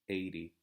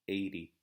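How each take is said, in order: Both takes have the same delivery.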